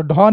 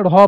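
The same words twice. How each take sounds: First: "ढ" as a hard aspirated retroflex stop, dh. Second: "ढ़" as an aspirated retroflex flap, rh; flapped ढ़. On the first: Teacher warning pupils off a misreading, hard stopped "ढ". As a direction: tap no r, stop the tongue firmly for "ढ". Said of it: "तो ढ नहीं पढ़ना है". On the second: Teacher giving pupils the right reading, flapped "ढ़". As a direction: flick the tongue for a breathy r in "ढ़". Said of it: "ढ़ पढ़ना है". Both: Shown as a demonstration.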